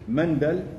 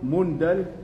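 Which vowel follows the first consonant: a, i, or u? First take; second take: a; u. First: The first vowel is an a sound. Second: The first vowel is a u sound. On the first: "بالفتح" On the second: "بالضم"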